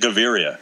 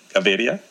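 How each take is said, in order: First: The name is said with an English-style pronunciation. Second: The name is said with a Spanish-like pronunciation. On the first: "They're just going to say Gaviria" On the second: "That's pretty good"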